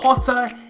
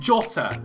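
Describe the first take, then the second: First: The name is said the Spanish way. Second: The name is said a non-Spanish way. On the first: The speaker calls it wrong. "I thought it was the Spanish pronunciation. It isn't" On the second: The speaker calls it right. "it's just Jota"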